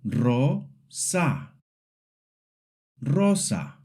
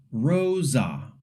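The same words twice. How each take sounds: First: Rosa with pure O and A; pure Spanish vowels. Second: Rosa with an English oh-glide and a Z; wrong gliding vowel. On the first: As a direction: say Rosa with clean short vowels and a light R. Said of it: "Repeat after me". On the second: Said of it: "saying it like rosa". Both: Shown as a demonstration.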